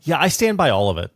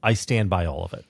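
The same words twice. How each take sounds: First: Quick, cocky and louder, brushing it off; glib. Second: Sincere. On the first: Cohost defending his own rant, glib and defiant. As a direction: toss it off with a shrug. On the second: Cohost restating his stance, now sincere and serious. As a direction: lower and steadier, meaning every word. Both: Real, not acted. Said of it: "to be non-glib".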